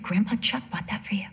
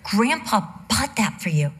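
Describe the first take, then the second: First: Hushed unvoiced whisper, laying on guilt; mock-solemn whisper to a child. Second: Said in the usual way. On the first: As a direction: breathe it out like a secret. Mother whispers guilt-trip to son.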